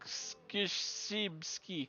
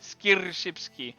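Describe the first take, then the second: First: The name is said without an R sound. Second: The name is said with an R sound. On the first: "there's no R pronunciation" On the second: "I would have said something like skir skirshipski"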